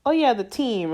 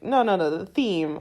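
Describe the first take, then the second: First: Theme said as "team", with a hard T; dropped TH. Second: Said in the usual way. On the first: Retold or imitated. Speaker caught slipping while talking to mom, "team" for theme. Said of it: "I don't say my T Hs". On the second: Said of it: "then I'm like".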